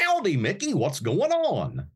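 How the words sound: The voice sits forward in the mouth, sounding bright. This is the newer, higher-energy character voice. "bring the voice up to the front of my mouth a little bit more"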